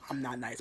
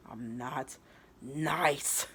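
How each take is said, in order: First: Said in the usual way. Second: Halting, then a loud "nice"; mock tearful defiance. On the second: Rival with tears in her eyes, mildly acted defiance. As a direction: break before "nice" and push it out hard. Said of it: "like, tears in her eyes".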